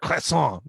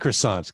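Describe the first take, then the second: First: Croissant is pronounced the French way. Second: Croissant is pronounced the English way. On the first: The speaker is affecting a foreign pronunciation. The speaker calls it wrong. "someone from Chicago saying, "I'd like to order a croissant."" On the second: The speaker uses the local pronunciation. The speaker calls it right. "just say croissant"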